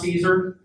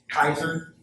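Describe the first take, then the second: First: The name begins with a soft S sound. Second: The name begins with a hard K sound. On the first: The speaker calls it wrong. "this is not Caesar" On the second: The speaker calls it right. "the C always makes a hard K noise in Latin"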